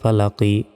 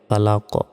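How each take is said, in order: First: The word ends with a short i vowel. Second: The word ends on the consonant q. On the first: The recitation continues without stopping. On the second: The reciter stops at this word.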